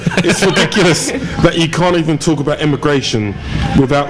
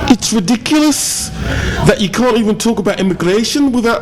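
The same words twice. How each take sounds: First: It is read in the speaker's ordinary accent. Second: It is read in an exaggerated put-on accent. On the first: It simply reports what the commenter wrote. The speaker calls it right. "I'll do it in my normal voice" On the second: It adds flavour by imitating the commenter. The speaker calls it wrong. "I'm doing it in a really bad accent"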